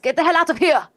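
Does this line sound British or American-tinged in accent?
American-tinged. The line slips into an overdone, American-tinged accent. "he says it like that"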